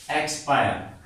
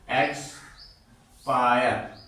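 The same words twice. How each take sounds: First: Said in the usual way. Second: एक्सपायर stretched very slowly, each syllable "ek-spa-yar" long; drawn-out model word. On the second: Shown as a demonstration. Teacher drawing out एक्सपायर so students hear the "ai". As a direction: spell out एक्सपायर syllable by syllable, very slow. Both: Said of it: "आई".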